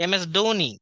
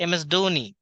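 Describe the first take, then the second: No difference in how they are said.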